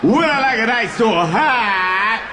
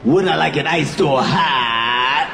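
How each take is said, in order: First: Nervous repeat. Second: Lower, slow, laughing repeat of the question; nervous repeat. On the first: Comic stalling at the barista, slow bewildered echo. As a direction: drag the question out, lost. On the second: Comic stalling at the barista, repeating the question low and slow. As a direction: echo it back, stalling with a laugh. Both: Shown as a demonstration. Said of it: "when I get nervous, I just repeat shit".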